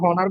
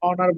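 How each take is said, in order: First: The word begins with an h sound. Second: The word begins with a vowel sound. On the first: The speaker calls it wrong. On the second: The speaker calls it right.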